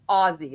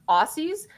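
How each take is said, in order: First: The middle consonant is a z sound. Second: The middle consonant is an s sound. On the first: The speaker calls it right. "it's actually Aussie" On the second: The speaker calls it wrong. "Americans always tend to get Aussies wrong"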